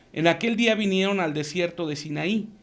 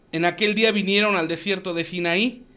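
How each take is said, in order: Both takes have the same delivery.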